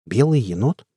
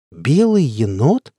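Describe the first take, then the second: First: Short questioning echo, rising at the end; puzzled question. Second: Slow, stretched question with a big rise; drawn-out disbelief. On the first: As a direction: ask it briefly, mildly puzzled. First take of repeated surprised question. (недоумённый вопрос) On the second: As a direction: draw out both words in disbelief. (протяжно, с изумлением) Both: A narrator's reading.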